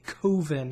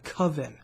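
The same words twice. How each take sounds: First: The word has an odd, unusual pronunciation. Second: The word has its ordinary pronunciation.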